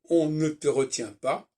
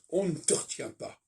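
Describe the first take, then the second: First: Every weak e vowel is fully pronounced. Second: The weak e vowels are dropped and run together. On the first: This is how it is written. The speaker calls it wrong. "si j'écris par exemple" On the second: This is how it is really spoken. The speaker calls it right. "en réalité ça se prononce"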